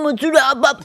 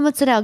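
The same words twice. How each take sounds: First: The accent is heavy and exaggerated. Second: The accent is natural and restrained. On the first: It mocks a crude stereotype. The speaker calls it wrong. "I don't want people to go, I got the fucking mozzarella" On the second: It is said with dignity, as at a family table. The speaker calls it right. "he said it in a way that was it still had like dignity"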